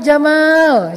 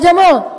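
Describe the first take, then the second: First: The second vowel is said long. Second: The second vowel is said short. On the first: It means handsome. The speaker calls it right. "Kok panjang sih? Biar benar, Bapak keren" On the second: It means camel. The speaker calls it wrong. "Jangan Pak Jamal, Pak Onta"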